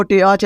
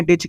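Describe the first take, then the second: First: टीच as "te-ach", vowels split; letter-by-letter misreading. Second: टीच with one long ee; correct reading. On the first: Teacher showing what not to read, टीच as "te-ach". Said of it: "आपको टीच नहीं पढ़ना". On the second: Teacher giving the right reading, टीच as "teech". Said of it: "आपको क्या पढ़ना है?". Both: Shown as a demonstration.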